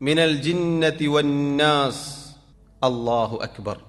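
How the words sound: A clear pause separates the verse and phrase. The speaker calls it right. "മറിച്ചൊരു സെക്ത വേണം"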